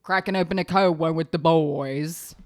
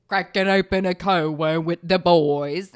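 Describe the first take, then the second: First: A hint of a bro toast; lightly voiced frat guy celebrating; mock bro voice. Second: The bro toast yelled louder; loud bro cheer. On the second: Retold or imitated. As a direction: belt it like a frat guy cheering. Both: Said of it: "I was like".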